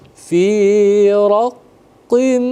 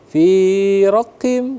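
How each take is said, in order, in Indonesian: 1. Bunyi sengau ditahan selama dua harakat. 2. Dibaca terburu-buru dan bunyi sengaunya dipotong pendek. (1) "raqim tahan selama dua harakat" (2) "kalau terburu-buru seperti fi raqim"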